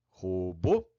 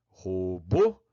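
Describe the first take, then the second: Both takes have the same delivery.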